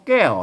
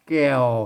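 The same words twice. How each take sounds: First: The word carries the ordinary tho tone. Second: The word carries the ek tone. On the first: "ใส่ไม่โทไว้แก้วนะ...เสียงโทปกตินะ" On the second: "ใส่ไม่เอกไว้แก้วเห็นไหมเสียงเอกนะ"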